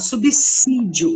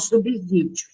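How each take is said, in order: First: The middle sound is a hissing S. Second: The middle sound is a buzzing Z. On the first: The speaker calls it right. "o som é de dois S" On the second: The speaker calls it wrong. "e não subsídio"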